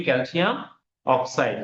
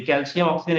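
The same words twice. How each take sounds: First: calcium অক্সাইড with the ending changed to অক্সাইড; right pronunciation. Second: calcium অক্সিজেন said with the full word অক্সিজেন at the end; wrong pronunciation. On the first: Teacher giving students the correct name, calcium অক্সাইড. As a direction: end on অক্সাইড, the corrected form. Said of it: "আমরা উচ্চারণ করি". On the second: Teacher showing students the wrong name, calcium অক্সিজেন. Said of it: "এভাবে উচ্চারণ করি না". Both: Shown as a demonstration.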